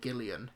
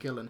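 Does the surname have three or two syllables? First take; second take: three; two. First: The surname is said with three syllables. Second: The surname is said with two syllables. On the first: The speaker calls it wrong. "pronounce her name Karen Gillian instead of Karen Gillan" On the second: The speaker calls it right. "instead of Karen Gillan"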